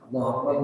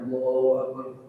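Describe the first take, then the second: First: It is said quickly, with short clipped vowels. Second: It is said slowly, with long drawn-out vowels.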